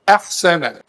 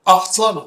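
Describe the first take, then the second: First: The opening hamza is light and thin. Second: The opening hamza is heavy and thick. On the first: The speaker calls it right. "الهمزة بتقول أحسن" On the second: The speaker calls it wrong. "محدش يقدر يقول لي أحسن"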